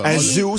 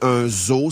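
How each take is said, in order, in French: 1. Le mot a une prononciation à l'anglaise. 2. Le mot a une prononciation à la française. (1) "c'est en anglais, probablement" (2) "c'est en français"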